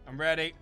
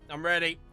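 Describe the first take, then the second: No difference in how they are said.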